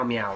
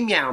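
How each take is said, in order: First: Low cat meow. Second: A high, sing-song kitty meow; playful high-pitched cat call. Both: Pretend. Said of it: "Here's Kitty".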